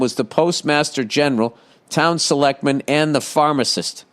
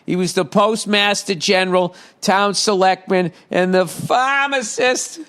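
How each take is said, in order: First: It is said in a neutral accent. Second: It is said in a Boston accent.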